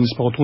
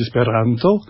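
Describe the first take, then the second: First: Said in the usual way. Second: "esperanto" with a rolled R and stress on "ran"; Esperanto pronunciation. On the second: Shown as a demonstration. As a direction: say "esperanto" rolling the R, stressing the next-to-last syllable. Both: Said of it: "on dit esperanto".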